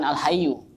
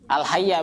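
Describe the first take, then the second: First: The word ends with a 'u' vowel. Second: The word ends with an 'a' vowel. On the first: The speaker calls it wrong. "bukan al hayyu" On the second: The speaker calls it right. "Yang penting intinya al hayya ini"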